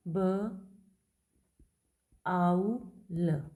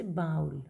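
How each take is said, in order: First: बाउल broken into ब, आउ, ल with long pauses; sound by sound. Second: Said in the usual way. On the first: Shown as a demonstration. Teacher transcribing a word for students, ब, आउ, ल sounded out separately. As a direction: say ब, आउ, ल as three separate, firmly voiced sounds. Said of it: "इसको आप transcribe कैसे करेंगे". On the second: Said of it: "जैसे कोई भी एक वर्ड है".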